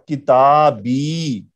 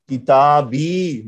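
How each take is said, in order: Both takes have the same delivery.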